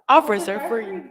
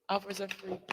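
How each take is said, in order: First: It is said loudly. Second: It is said at normal volume.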